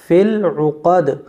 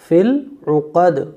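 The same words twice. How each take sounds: No difference in how they are said.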